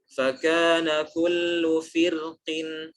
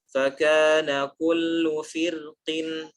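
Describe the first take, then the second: Both takes have the same delivery.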